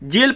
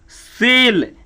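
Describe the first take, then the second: First: The word begins with a j sound. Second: The word begins with an s sound. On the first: The speaker calls it wrong. "ये सब गलत है" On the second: The speaker calls it right. "इसका होगा सी ई से से"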